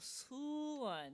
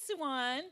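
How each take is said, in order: First: The name is said with a Korean-style pronunciation. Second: The name is said in a plain everyday way.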